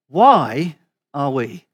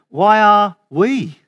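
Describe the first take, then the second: First: The stress is on "why". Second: The stress is on "we".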